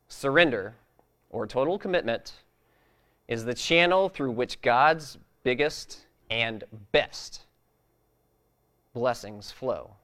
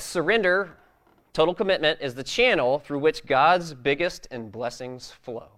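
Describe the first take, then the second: First: It is read more slowly. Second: It is read quickly.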